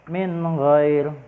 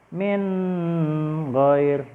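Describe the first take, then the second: First: The nun sound is clear and crisp. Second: The nun sound is held and nasalized. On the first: The speaker calls it right. "Dia harus jelas dan tegas" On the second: The speaker calls it wrong. "nggak boleh"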